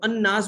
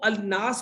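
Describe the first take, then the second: First: The L merges into a doubled n sound. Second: The L sound of the article is clearly pronounced. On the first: The speaker calls it right. "इसको अन्नास बोलते हैं।" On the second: The speaker calls it wrong. "इसको अलनास बोलते हैं या अन्नास बोलते हैं?"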